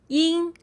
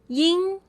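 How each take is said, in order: Both takes have the same delivery.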